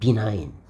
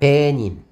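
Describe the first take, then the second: First: The word ends with a long 'nine' sound. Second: The word ends with a short 'nin' sound. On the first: The speaker calls it right. "이게 무엇입니까, 여러분들? benign" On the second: The speaker calls it wrong. "어떤 학생들이 뭐라고 하면 이렇게 읽었습니다"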